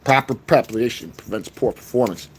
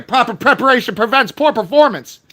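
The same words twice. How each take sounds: First: Much lower and softer, ominous motto; deep voice. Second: Said in the usual way. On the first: Acted. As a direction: drop the voice low and quiet.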